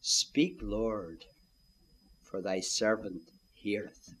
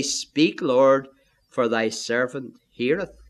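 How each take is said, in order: First: Low, soft and slow, bowing to God; hushed humble prayer. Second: Said in the usual way. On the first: Shown as a demonstration. Preacher showing the listener how to answer God: soft, low and humble. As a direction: breathe it like a humble servant. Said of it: "here's what to do. Say".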